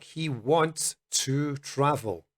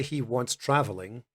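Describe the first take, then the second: First: Slow, clear he wants to travel; slow example. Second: Wrong form, he wants traveling; mock the error; wrong example. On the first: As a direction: read the example slowly. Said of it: "a sentence like". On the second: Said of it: "We don't say". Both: Shown as a demonstration.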